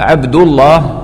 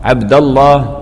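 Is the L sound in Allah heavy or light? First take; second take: heavy; heavy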